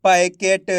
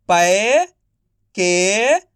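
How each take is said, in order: First: Said in the usual way. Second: "packet" very slow, with gaps between syllables. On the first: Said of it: "तो मिलके बन जाएगा". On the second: Shown as a demonstration. Teacher spelling out packet for learners, syllable by syllable. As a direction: stretch and separate each syllable of "packet". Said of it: "एक अक्षर का उच्चारण करना है".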